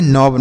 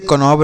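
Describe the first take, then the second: First: नॉब with silent K; one syllable नॉब, straight onto the N; correct reading. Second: कनॉब with the K sounded; wrong reading. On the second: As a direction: misread कनॉब as "ka-nob", K before the N. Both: Shown as a demonstration. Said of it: "इसे कनॉब नहीं नॉब".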